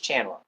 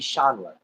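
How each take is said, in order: First: The name is pronounced in an English way. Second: The name is pronounced in a French way. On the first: The name is taken as English. "if it's uh, English, it's Chandler" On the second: The name is taken as French. "If it's French, it'd be Chandler"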